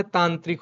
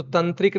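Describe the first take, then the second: First: तांत्रिक with a long aa in the first syllable; correct form. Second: तंत्रिक said with a short first a, as the wrong form. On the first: Teacher giving students the correct word, long first aa. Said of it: "तंत्रिक नहीं होता है, तांत्रिक होता है". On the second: Teacher showing the wrong word to students, short first vowel. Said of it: "तंत्रिक नहीं होता है". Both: Shown as a demonstration.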